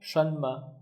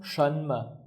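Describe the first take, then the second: First: The n at the first syllable's end is sounded. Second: The n at the first syllable's end is sounded.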